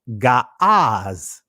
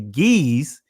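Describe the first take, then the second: First: The vowel is an open 'ah' sound. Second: The vowel is not an open 'ah' sound. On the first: This is the ancient, original pronunciation. The speaker calls it right. "the proper pronunciation of the ancient" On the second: This is how many people commonly say it. The speaker calls it wrong. "what many would say"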